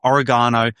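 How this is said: It is said with an Australian accent.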